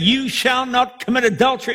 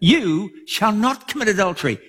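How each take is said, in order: First: It sounds like a stern command. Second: It sounds like a gentle promise.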